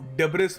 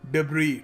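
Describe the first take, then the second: First: The word ends with a sounded s. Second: The word ends on a vowel, s silent. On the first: The speaker calls it wrong. "इसको डेब्रिस pronounce नहीं करते" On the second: The speaker calls it right. "इसको pronounce करने का सही तरीका है डिब्री"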